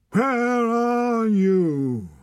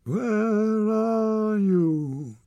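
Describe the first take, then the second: First: Long, high howled call, very slow; desolate howl. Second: High, drawn-out howl, stress on are; howled call. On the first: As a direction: howl the words like a lost wolf cub. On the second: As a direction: call out into the hills, stretched and despairing. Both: Acted. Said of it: "Torak's desolate howl".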